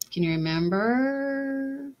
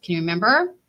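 First: Slow, drawn-out coaxing question; slow teasing prompt to children. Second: Said in the usual way. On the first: Shown as a demonstration. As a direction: stretch it out to coax the kids.

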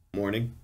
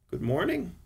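First: Said in the usual way. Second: Higher-pitched, drowsy woman's voice; a drowsy good morning, lilting up high; sleepy wife. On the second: A narrator's reading. Wife greets husband on waking, sleepy. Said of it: "she said in a sleepy voice".

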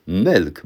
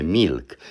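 First: Milk with a dark l, close to mełk; correct milk. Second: Milk with a soft Polish mi and a clear l; wrong milk. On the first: Teacher showing viewers the right milk, with a dark ł-like l. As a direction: say milk so the l sounds like a Polish ł. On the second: Teacher showing viewers the wrong milk, soft mi and a clear l. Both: Shown as a demonstration. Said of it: "bo nie mówimy milk".

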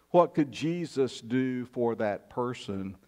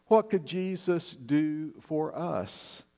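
First: Said in the usual way. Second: Slow and deliberate, leaning on "What"; preacher's slow emphatic appeal; slow, weighty question. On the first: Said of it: "repeated question, first plain". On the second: Shown as a demonstration. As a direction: let the question "What could Jesus do for us?" hang, slowly. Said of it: "repeated question, slowed for emphasis".

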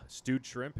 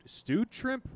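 First: Said in the usual way. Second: Stewed shrimp pitched high, rising; stewed shrimp as an incredulous question; disbelief. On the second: Real, not acted. What the fuck?.

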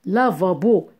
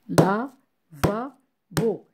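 First: Said in the usual way. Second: Lavabo slowly split into la, va, bo; syllable by syllable. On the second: Shown as a demonstration. Teacher counting syllables with claps, lavabo slow and split. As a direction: break lavabo into three slow, separate beats. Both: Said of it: "compter les syllabes en frappant des".

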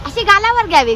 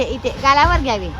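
First: लाडिक उंच सूर. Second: Said in the usual way. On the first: Real, not acted. बाळाला गालावर पप्पी दाखवते.

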